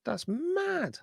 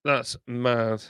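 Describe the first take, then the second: First: Much higher, squeaky disbelieving That's mad; amazed squeal. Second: Said in the usual way. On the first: Real, not acted. Streamer squeals at likes count, amazed.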